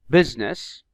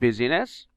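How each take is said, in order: First: The silent letter is not pronounced. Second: The silent letter is pronounced aloud. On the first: The speaker calls it right. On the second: The speaker calls it wrong.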